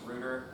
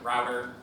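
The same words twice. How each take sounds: First: It is said in a British pronunciation. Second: It is said in a non-British pronunciation.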